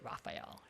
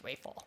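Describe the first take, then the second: First: The name sounds like the name Raphael. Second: The name sounds like the shorter form Rafel. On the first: The speaker calls it wrong. "we don't pronounce it Raphael" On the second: The speaker calls it right. "it's Rafel"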